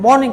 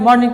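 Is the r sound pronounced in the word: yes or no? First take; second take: no; yes. First: The word is said without an r sound. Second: The word is said with an r sound. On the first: The speaker calls it right. "उसको आर का जो है उच्चारण नहीं करते हैं" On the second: The speaker calls it wrong. "कितने लोग मॉर्निंग मॉर्निंग कहते हैं, ये नहीं करते हैं"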